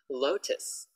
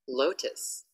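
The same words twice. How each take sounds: First: The word ends with an s sound. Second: The word ends with an s sound.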